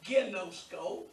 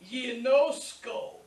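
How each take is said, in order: First: The word begins with a hard g sound. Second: The word begins with a y sound. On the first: The speaker calls it wrong. "not genosko" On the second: The speaker calls it right. "So it's ye"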